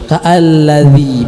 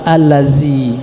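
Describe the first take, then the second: First: The middle consonant is a soft 'dh' sound. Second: The middle consonant is a buzzing 'z' sound. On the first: The speaker calls it right. "pada huruf dzal, bukan dilapaskan menggunakan huruf za atau zai" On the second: The speaker calls it wrong. "bukan allazi"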